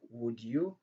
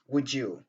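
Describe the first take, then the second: First: The d and y sounds stay separate. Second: The d and y merge into a j sound. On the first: The speaker calls it wrong. "Au lieu de dire would you" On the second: The speaker calls it right. "ils disent would you"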